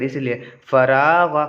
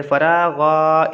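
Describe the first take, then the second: First: फ़रागा with every vowel short; फ़रागा spoken briskly, short vowels; short quick vowels. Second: फ़रागा with the रा stretched long; फ़रागा said very slowly, vowels held; drawn-out long vowel. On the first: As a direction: say फ़रागा quickly, nothing stretched. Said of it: "ये जल्दी पढ़ेंगे". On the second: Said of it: "तो हम इसको ऐसे पढ़ते". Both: Shown as a demonstration.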